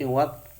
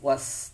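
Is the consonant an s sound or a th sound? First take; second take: th sound; s sound. First: The consonant is pronounced as a th sound. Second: The consonant is pronounced as an s sound. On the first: The speaker calls it right. "tapi wat" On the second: The speaker calls it wrong. "bukan was"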